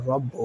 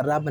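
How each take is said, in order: First: رب with a thick, full ra; heavy ra. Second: رب with a light, thin ra; thin ra, wrong. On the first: Teacher showing the heavy ra in رب. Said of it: "را کو پر پڑھیں گے اس طرح". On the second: Teacher showing how not to read رب. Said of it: "رب نہیں پڑھیں گے". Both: Shown as a demonstration.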